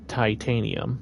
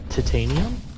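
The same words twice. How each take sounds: First: It is said in the speaker's usual accent. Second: It is said in a picked-up foreign accent. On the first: "I have to be deliberate about saying this this way" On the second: "I started calling it titanium"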